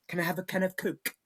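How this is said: It is said in a very British accent.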